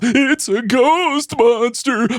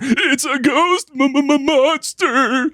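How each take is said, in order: First: Monster is said smoothly, without stuttering. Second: Monster is stuttered fearfully, m-m-m-monster.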